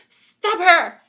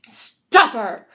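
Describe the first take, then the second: First: The voice is of middling pitch. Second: The voice is deep and gruff. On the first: "in her middle voice" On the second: "in his great gruff, gruff voice"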